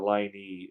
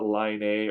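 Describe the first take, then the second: First: The name sounds like 'Line-ee'. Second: The name sounds like 'Line-ay'. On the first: "or Line E" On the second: "it's not Line A"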